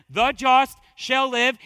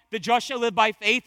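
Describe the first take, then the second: First: Loud, slow, weight through "shall live"; stress on SHALL LIVE. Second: Loud preaching with weight on "just"; stress on JUST. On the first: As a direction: stretch and hammer "shall live". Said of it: "the emphasis is "shall live". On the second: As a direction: make "just" the point of the verse. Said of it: "The emphasis there is developed by the context, the just". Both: Shown as a demonstration.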